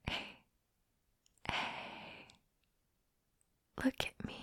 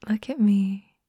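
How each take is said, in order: First: Hushed coaxing whisper. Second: Said in the usual way. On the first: Acted. Coaxing a shy friend to look up, whisper. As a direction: draw their eyes up in a hush.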